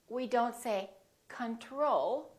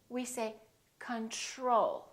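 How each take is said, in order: First: The middle tr has a plain, crisp t. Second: The middle tr sounds soft, like chr. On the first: The speaker calls it wrong. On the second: The speaker calls it right.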